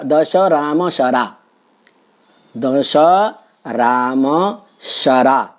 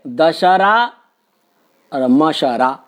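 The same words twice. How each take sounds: First: दश राम शरा with clear breaks between words; slow word-by-word; words kept apart. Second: Dussehra मशरा slurred as one word; wrong word joining; wrongly run together. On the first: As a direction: separate each word slowly. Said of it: "एक उदाहरण हम देते हैं". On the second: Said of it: "गड़बड़ कर दिया है". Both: Shown as a demonstration.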